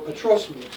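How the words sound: The stress falls on the word patros.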